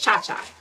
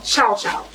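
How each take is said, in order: First: Each syllable has the vowel sound 'ah'. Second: Each syllable has the vowel sound 'ow'. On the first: This is how the name is said within one community. The speaker calls it wrong. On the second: This is the standard name for the relish. The speaker calls it right. "the correct term is chow chow"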